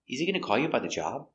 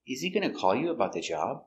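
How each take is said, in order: First: The sentence is said at normal speed. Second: The sentence is said more slowly.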